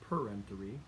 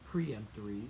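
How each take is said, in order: First: The word begins with 'per', like perimeter. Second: The word begins with 'pree', like preempt. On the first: The speaker calls it right. "it's peremptory" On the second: The speaker calls it wrong. "it's not preemptory"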